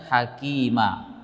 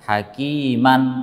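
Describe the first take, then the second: First: The word ends on a plain vowel, no n. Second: The word ends with an added n sound. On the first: The speaker calls it right. "ketika kita berhenti maka tanwinnya tidak ada lagi di situ" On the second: The speaker calls it wrong. "tidak dibaca dengan hakiman"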